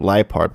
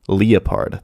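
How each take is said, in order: First: The first syllable rhymes with 'lie'. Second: The first syllable sounds like in 'leopard'. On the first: The name comes from the word lie. "it lies because it's a dark type" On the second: Someone else said it. "he pronounces the I in Liepard as an E. ... That's how he said it"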